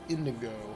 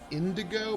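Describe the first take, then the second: First: The name is said without a D sound. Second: The name is said with a D sound. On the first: The speaker calls it right. "It's indigo" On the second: The speaker calls it wrong. "I keep saying indigo, but it's not"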